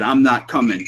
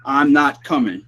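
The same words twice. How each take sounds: First: A light, plain read of the spirit's words; barely voiced spirit imitation; imitating the EVP voice. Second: Slow, drawn-out echo of the spirit's words; slow mock spirit voice; slowed EVP imitation. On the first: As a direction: say it like the recording said it. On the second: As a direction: stretch it out slowly like the recording. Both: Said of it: "It said".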